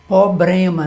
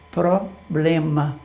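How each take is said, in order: First: The r after the first p is dropped. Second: The word starts with a clear 'pr' cluster. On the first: The speaker calls it wrong. "já ouviu isso" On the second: The speaker calls it right. "correto mesmo"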